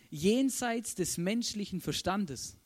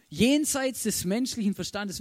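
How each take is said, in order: First: Jenseits des menschlichen Verstandes drawn out slowly. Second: Jenseits des menschlichen Verstandes louder, hit on Jenseits; emphatic repeat. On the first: (jenseits des menschlichen Verstandes langsam gedehnt) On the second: (Jenseits betont und lauter wiederholt) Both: Shown as a demonstration.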